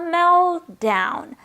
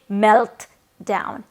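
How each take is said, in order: First: The T sound is dropped before the D. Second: The T sound is pronounced before the D. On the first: The speaker calls it right. "we're only going to pronounce the stronger sound, which is the D" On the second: The speaker calls it wrong. "be sure not to pronounce the T. Don't say melt down"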